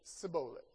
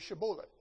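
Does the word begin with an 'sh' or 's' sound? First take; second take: s; sh. First: The word begins with a plain 's' sound. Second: The word begins with an 'sh' sound.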